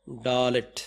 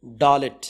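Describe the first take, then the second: First: Said in the usual way. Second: డాలెట్ said firmly as "daa-let"; letter name dalet. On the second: Shown as a demonstration. Teacher introduces the fourth letter to students. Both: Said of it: "ఇలా రాసి".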